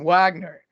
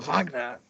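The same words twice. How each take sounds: First: The name is said with an American pronunciation. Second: The name is said with a European pronunciation. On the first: The speaker calls it wrong. "you're butchering those pronunciations" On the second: The speaker calls it right. "It's Tchaikovsky or Wagner"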